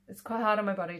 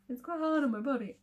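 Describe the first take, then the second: First: It is said in a normal speaking voice. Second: It is said in a silly put-on voice.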